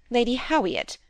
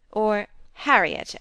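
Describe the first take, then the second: First: Howiett with the r turned to w; affected Howiett. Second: Said in the usual way. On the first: A narrator's reading. Narrator mimicking Lady Cumnor naming her daughter Howiett. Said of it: "It rhymed to her daughter". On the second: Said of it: "as the name was spelt".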